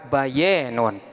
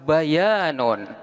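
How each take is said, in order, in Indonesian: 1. Vokal panjangnya condong ke bunyi 'e'. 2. Vokal panjangnya adalah 'a' terbuka biasa.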